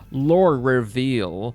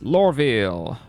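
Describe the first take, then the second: First: It is said like two words, 'lore reveal'. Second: It is said as one word, 'Lorville'. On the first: The speaker calls it wrong. "I hate it when people say lore, lore reveal" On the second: The speaker calls it right. "it's Lorville"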